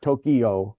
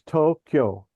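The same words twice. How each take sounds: First: The word is said in three syllables. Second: The word is said in two syllables. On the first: The speaker calls it wrong. "It's not Tokyo" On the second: The speaker calls it right. "It's two syllables. It's Tokyo"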